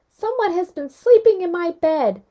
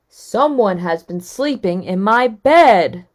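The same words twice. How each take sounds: First: It is said in Baby Bear's wee little voice. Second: It is said in Papa Bear's great big voice.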